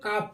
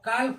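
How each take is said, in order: First: The L sound is left out. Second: The L sound is clearly pronounced. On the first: The speaker calls it right. "इसको काफ पढ़ते हैं" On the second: The speaker calls it wrong. "काल्फ नहीं पढ़ते"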